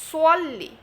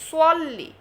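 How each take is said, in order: Both takes have the same delivery.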